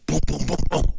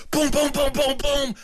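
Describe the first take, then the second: First: Timid knocking sounds. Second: Loud pounding knock. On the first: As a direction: tap it out gently, a little unsure. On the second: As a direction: boom boom boom pounded out much higher and louder. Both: Retold or imitated. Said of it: "You didn't knock loud enough".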